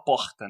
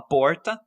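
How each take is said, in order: First: "porta" with a back fricative R, Rio accent; Rio de Janeiro accent. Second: "porta" with an English-like retroflex R, interior São Paulo accent; São Paulo countryside accent. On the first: Linguist showing how Rio speaks, Rio de Janeiro accent. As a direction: say "porta" with a carioca throaty H-like R. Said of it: "no Rio de Janeiro se fala porta". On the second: Linguist showing how the interior speaks, São Paulo countryside accent. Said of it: "no interior a gente fala porta". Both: Shown as a demonstration.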